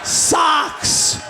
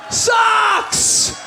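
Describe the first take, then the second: First: Said in the usual way. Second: Socks said high and drawn out, disgusted. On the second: Shown as a demonstration. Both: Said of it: "repeated for effect".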